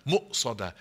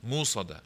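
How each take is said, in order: First: Mu'sada with a sharp glottal catch before sada; mu'sada, stop in the throat then go. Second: Musada with a smooth long u and no catch; without hamza. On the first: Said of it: "it's a stress". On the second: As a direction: glide straight through musada. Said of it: "There's no hamza". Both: Shown as a demonstration.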